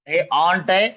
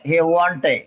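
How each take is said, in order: First: The word begins with a bare vowel. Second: The word begins with a w sound. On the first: The speaker calls it wrong. "ऑन्ट नाही म्हणायचं" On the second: The speaker calls it right. "व व व व वजनाचं वॉन्ट"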